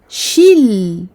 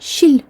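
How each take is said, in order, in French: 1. Le son l est tenu un court instant. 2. Le son l est passé trop vite.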